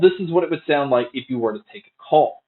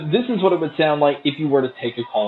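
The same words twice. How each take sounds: First: The voice is heard without background crowd noise. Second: The voice is heard over background crowd noise.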